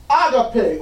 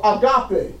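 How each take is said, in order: First: Agape said AH-guh-pay; first-syllable stress. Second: Agape said ah-GAH-pay; second-syllable stress. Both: Shown as a demonstration. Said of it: "depends on who you say, who pronounces it".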